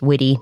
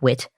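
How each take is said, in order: First: The name is said with two syllables. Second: The name is said with one syllable. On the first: The speaker calls it right. "It's pronounced Witty" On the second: The speaker calls it wrong. "not Wit"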